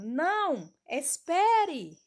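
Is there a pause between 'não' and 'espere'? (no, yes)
yes. There is a pause after 'não'. The listener is asked to wait. "Nesse primeiro exemplo"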